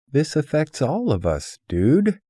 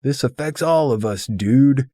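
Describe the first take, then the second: First: Pitched high and loud, hollering at him; shouting in protest. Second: High, fast, very loud shout after someone leaving; hollering after the departing friend; calling after him. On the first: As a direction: yell it across the coffee house. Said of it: "freedom to holler". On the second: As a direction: bellow it after him as he storms out. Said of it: "Walter calls after him". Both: Retold or imitated.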